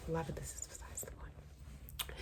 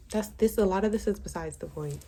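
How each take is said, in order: First: Whispered aside, much softer. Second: Said in the usual way. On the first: Real, not acted.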